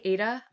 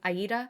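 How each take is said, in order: First: The word is said the everyday way. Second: The word is said the fancy way. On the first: "Sometimes I say Ada" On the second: "I'm feeling fancy today, so I'm saying Aida"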